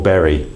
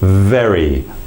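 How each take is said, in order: First: It begins with both lips closing, a B sound. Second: It begins with teeth on lip, a V sound. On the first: The speaker calls it wrong. "move it into a B sound" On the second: The speaker calls it right. "we use this sound in review, investor, very"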